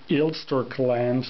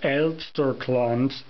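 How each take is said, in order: First: The word is said with English pronunciation. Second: The word is said with German pronunciation. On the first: "if I would pronounce it in English it would be" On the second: "In Germany it's called"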